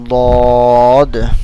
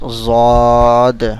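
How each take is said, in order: First: The name begins with a D sound. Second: The name begins with a Z sound. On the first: The speaker calls it right. "The correct and verify the pronunciation of this letter is dod" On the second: The speaker calls it wrong. "some people read this letter like zod. Okay, so this is the wrong way"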